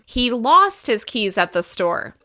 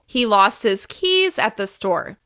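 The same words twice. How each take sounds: First: The word lost is stressed. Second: The word keys is stressed. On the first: The keys were lost, not forgotten or found. "We can also emphasize the verb" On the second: It was the keys, not the wallet. "By emphasizing keys more than the rest of the other words"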